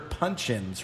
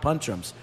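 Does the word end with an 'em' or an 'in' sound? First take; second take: in; em. First: The word ends with an 'in' sound. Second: The word ends with an 'em' sound. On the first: The speaker calls it right. "You know they're punch-ins, right?" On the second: The speaker calls it wrong. "Not punch-ems"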